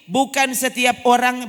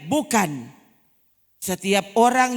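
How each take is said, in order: First: It is said without a pause after the first word. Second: It is said with a pause after the first word. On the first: Not everyone who calls out will enter. The speaker calls it right. "ini bacanya mesti bukan setiap orang" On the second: No; everyone who calls out will enter. The speaker calls it wrong. "Masa cara bacanya begini?"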